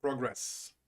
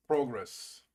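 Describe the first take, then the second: First: Progress as a verb, second syllable stressed; stress on last syllable. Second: Progress as a noun, first syllable stressed. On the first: Streamer practising the verb after a correction, Progress stressed on the last syllable. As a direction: put the weight on the GRESS of Progress. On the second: Streamer contrasting noun with verb, Progress stressed on the first syllable. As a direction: hit the PRO of Progress, then let it fall. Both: Shown as a demonstration. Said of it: "last syllable when using it as a verb".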